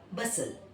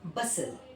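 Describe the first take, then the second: First: The t sound is silent. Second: The t sound is silent.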